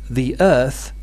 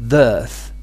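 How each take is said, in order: First: The two words are said as separate syllables. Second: The two words merge into one syllable.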